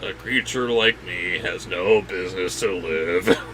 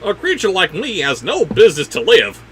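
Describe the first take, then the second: First: It is read in a mopey Eeyore impression. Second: It is read in the speaker's ordinary voice.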